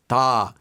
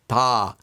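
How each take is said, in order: First: The D sound is soft and light. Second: The D sound is soft and light.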